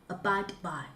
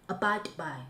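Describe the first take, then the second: No difference in how they are said.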